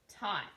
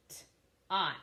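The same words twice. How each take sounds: First: Said in the usual way. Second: "T-ot" split after the T; sounded out. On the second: Shown as a demonstration. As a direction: sound out "T-ot" in pieces. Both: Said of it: "I'm gonna sound out those words".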